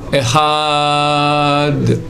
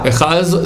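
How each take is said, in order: First: The word ends with a d sound. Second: The word ends with a z sound. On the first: The speaker calls it right. "on rallonge maintenant le A" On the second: The speaker calls it wrong. "disent un Z. Echaz, c'est faux"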